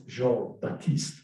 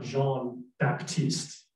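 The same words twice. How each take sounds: First: Jean Baptiste slowly, French, with silent P in Baptiste; French pronunciation. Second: Jean Baptiste with the P in Baptiste sounded; mispronounced name. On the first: Translator correcting his French, Jean Baptiste with silent P. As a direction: model Jean Baptiste as "zhahn ba-teest", slowly. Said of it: "you don't pronounce, uh, the P in Baptiste". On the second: Translator quoting the speaker's mistake, Jean Baptiste mispronounced with a P. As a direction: say Jean Baptiste the uncorrected way, P pronounced. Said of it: "his name is not Jean Baptiste".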